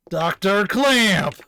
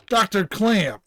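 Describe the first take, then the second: First: Loud, slow call with CLAMP stretched out; drawn-out shout. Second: Raised-voice call for Doctor Clamp. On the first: Officer trying to rouse the unanswering doctor, drawn-out shout. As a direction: holler it, dragging out the name. Calling again, louder and longer. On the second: Officer calling for the absent doctor, calling out. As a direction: call out to someone out of sight. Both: Acted.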